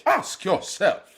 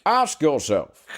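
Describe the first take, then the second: First: Shakespearean British, high and slow; British accent. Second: Slow, higher, exaggerated British accent. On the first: Retold or imitated. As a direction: play it like a stage Shakespearean actor. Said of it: "start doing Shakespeare". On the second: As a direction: ham up a stage British villain. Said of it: "hardcore, like, British accent".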